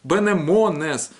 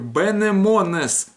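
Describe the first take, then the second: First: The vowels are pronounced as 'e' and 'o'. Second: The vowels are pronounced as 'e' and 'o'.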